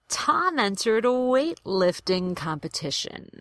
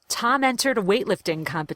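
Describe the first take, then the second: First: The sentence is said slowly and carefully. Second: The sentence is said at natural conversational speed. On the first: "I want to do them slowly" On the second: "the way I would say it in a real conversation"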